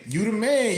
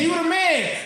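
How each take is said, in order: First: It sounds accusing and blaming. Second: It sounds warm and admiring. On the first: Things went badly and he gets the blame. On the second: Things went well and he gets praise. "you stroke his ego"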